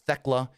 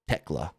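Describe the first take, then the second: First: The name begins with a TH sound. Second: The name begins with a plain T sound. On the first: The speaker calls it wrong. "it's not Thekla" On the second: The speaker calls it right. "Silent H"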